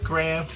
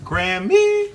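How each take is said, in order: First: GRAHAM as one short, low syllable, "Gram". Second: GRAMMY with a high, stretched "-mee" ending; two-syllable Grammy. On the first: Streamer tries out preferred nickname, Graham as one low syllable. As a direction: say Graham low, without the "-mee" ending. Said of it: "I like Graham". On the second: Streamer tries out a viewer's nickname, Grammy with high drawn-out ending. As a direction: say Grammy, second syllable lifted high and held. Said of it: "Why always say Grammy?". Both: Shown as a demonstration.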